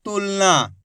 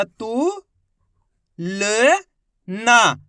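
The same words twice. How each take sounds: First: Said in the usual way. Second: तू, ल, ना as drawn-out, separate syllables; letter by letter. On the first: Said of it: "तो मिलके बन जाएगा". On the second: Shown as a demonstration. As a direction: sound out तू... ल... ना with pauses. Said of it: "एक एक अक्षर की पहचान करो".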